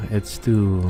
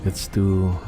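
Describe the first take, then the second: No difference in how they are said.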